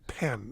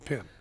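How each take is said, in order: First: The vowel sounds like the one in 'pen'. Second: The vowel sounds like the one in 'pin'. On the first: This is the name's real pronunciation. The speaker calls it right. "it's actually Pen" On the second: This is how someone else mispronounced the name. The speaker calls it wrong. "he called me Pin every single time"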